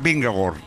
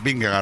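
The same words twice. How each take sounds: First: The last syllable has an O vowel sound. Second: The last syllable has an A vowel sound. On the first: "La pronunciación correcta es Vingegaard. / Con O" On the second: "lo digo con A"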